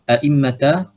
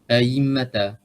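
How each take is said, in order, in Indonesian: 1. Hamzah glotal kedua dibaca penuh. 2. Hamzah glotal kedua dilunakkan mendekati y. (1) "membaca dengan tahqiq hamzah" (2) "membaca dengan tashil hamzah kedua kepada huruf ya seperti huruf ya"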